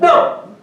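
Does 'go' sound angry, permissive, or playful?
playful. It is said playfully, half-pushing, half-teasing. Do not leave. "That means do not go"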